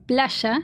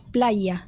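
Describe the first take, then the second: First: "playa" said as "plasha", the y sounding like sh; Argentine pronunciation. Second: "playa" with a clear y sound, "playa"; Mexican pronunciation. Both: Shown as a demonstration. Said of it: "different pronunciation".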